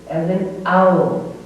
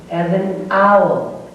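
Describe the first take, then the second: First: Owl stretched again for learners; slow phonics demo; slow model word. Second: Owl stretched for learners; slow phonics demo; slow model word. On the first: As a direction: repeat the model word slowly. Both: Shown as a demonstration.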